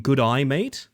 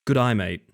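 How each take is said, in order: First: "Good eye, mate" as separate English words, rising at the end; phrase pronunciation demo. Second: "Good eye, mate" passed off as an Australian G'day, falling at the end; Australian-sounding demo. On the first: Streamer shows viewers the trick, "Good eye, mate" with a rise. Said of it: "saying "Good eye, mate" kinda fastly". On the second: Streamer retrying the trick for chat, Australian-sounding. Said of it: "Sounds like an Australian saying". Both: Shown as a demonstration.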